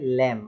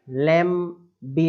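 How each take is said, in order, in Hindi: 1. शब्द m पर खत्म होता है, b नहीं। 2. अंत में b की ध्वनि सुनाई देती है। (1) "केवल इतना ही पढ़ेंगे" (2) "बी लगा के पढ़ते हैं"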